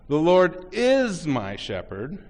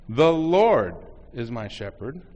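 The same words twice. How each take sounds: First: The word "is" is stressed. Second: The word "Lord" is stressed. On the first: "next the third word" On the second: "next the second word"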